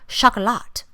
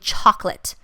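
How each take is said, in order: First: The word is said in a fancy, French-like way. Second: The word is said in a plain, everyday way.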